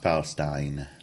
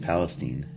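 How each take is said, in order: First: The last syllable sounds like 'stine'. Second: The last syllable sounds like 'steen'. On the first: The speaker calls it right. "It's Palestine" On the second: The speaker calls it wrong. "and it's not"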